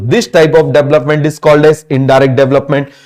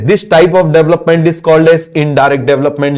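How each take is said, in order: First: Slow, word-by-word note dictation; slow classroom dictation. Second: Slow, evenly spaced dictation; slow teacher dictation pace; slow dictation again. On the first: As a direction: spell it out slowly so students can write. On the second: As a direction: dictate each word for the notebook. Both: Shown as a demonstration. Dictating a definition.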